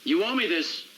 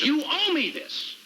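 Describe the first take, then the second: First: Pitched up, firm appeal; measured but insistent demand; earnest insistence. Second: Slow, high-pitched demand; heated, drawn-out insistence; insistent demand. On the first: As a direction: press the point after a pause. Presses the same demand again. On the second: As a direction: lean hard on every word, pitch up. Demands a favour from boss. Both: Acted.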